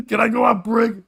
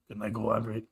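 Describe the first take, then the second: First: Loud, higher mock Russian coworker; blurted out loud. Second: Low, soft imitation of the coworker; quieter. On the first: Coworker asking for break mid-silence, blurted out loud. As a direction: imitate him blurting over the hush. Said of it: "just out loud goes". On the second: Coworker shushed during moment of silence, asking quieter. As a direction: drop it down under the shushing. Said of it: "kept saying it quieter".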